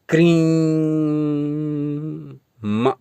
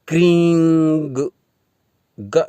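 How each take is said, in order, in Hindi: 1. यह एक जुड़ी हुई म ध्वनि से समाप्त होता है। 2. यह एक जुड़ी हुई ग ध्वनि से समाप्त होता है। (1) "क्रीं म न जोड़ें" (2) "क्रीं ग न जोड़ें"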